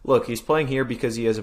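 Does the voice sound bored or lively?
lively. The words are read in a fairly lively tone. The speaker calls it wrong.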